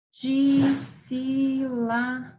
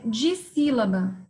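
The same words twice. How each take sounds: First: DISSÍLABA drawn out slowly, each syllable held. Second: Said in the usual way. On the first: Shown as a demonstration. Teacher splitting Dissílaba for pupils, very slow syllable by syllable. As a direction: stretch Dissílaba into separate long syllables. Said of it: "Essa é uma que eu separo". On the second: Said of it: "São duas sílabas".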